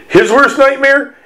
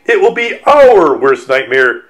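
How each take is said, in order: First: HIS worst nightmare said high as a question. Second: OUR leaned on in correction; stress on OUR. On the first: Author doubting whose nightmare the cover shows, high questioning. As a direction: query "His worst nightmare?" on a raised pitch. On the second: Author correcting whose nightmare it is, firm stress on "our". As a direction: punch "our" in "our worst nightmare", back at usual pitch. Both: Retold or imitated.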